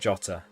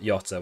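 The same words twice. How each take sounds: First: The name begins with a J sound. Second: The name begins with a Y sound. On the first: The speaker calls it right. "Apparently it's Jota, like Jota" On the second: The speaker calls it wrong. "not Jota with a Y"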